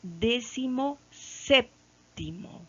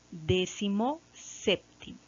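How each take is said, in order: First: Slow, lifted and spelled out: "Décimo séptimo"; showing the class the new word slowly; slow demo. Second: Said in the usual way. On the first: Shown as a demonstration. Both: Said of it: "Será así".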